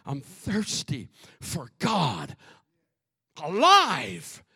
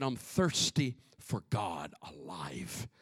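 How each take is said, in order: First: Building declaration. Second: Very low, slow, soft verse; hushed reading. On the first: Preacher repeating the psalm's thirst, slow building declaration. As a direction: repeat it slowly, bursting out on the last word. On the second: Preacher reading the psalm's thirst for God, hushed and slow. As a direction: read it slowly under the breath. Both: Acted.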